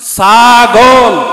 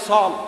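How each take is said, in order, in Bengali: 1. শব্দটি পূর্ণ প্রমিত রূপে বলা হয়েছে। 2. শব্দটি সংক্ষিপ্ত করে, চট্টগ্রামের আঞ্চলিক ভাষায় বলা হয়েছে।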